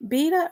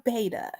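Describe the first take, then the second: First: Beta said as BEE-tuh; BEE-tuh pronunciation. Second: Beta said as BAY-duh; BAY-duh pronunciation. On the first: Host repeating the question after laughing, Beta pronounced BEE-tuh. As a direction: give Beta a long "ee" up front. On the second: Host repeating the question after laughing, Beta pronounced BAY-duh. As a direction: give Beta an "ay" up front. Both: Shown as a demonstration. Asks which pronunciation is right.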